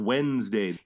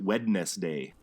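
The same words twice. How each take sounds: First: The first D is left silent. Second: The first D is pronounced clearly. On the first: This is how people normally say it. "Everybody says" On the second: This follows the spelling. "most people don't pronounce it Wednesday"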